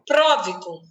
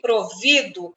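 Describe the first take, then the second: First: The stress is on the first syllable. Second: The stress is on the second syllable. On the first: Someone who provides for others. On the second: Someone who is supplied.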